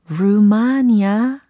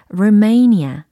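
First: The second syllable is a flat 'ma' sound. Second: The second syllable is a stressed, drawn-out 'may'. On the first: The speaker calls it wrong. "루마니아 아니고" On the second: The speaker calls it right. "may 이렇게 끌고 가줘야 된다라는 겁니다. 이음절 강세예요"

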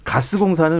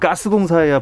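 First: The first consonant is soft and plain. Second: The first consonant is tense and forceful. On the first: It sounds too weak to catch fire. "가스공사는 왠지 불이 좀 안 날 것 같고" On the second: It sounds strong enough to catch fire. "가스공사해야 불이 좀 날 것 같고"

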